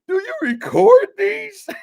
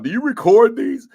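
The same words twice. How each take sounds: First: It is said in a mocking put-on voice. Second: It is said in his normal voice.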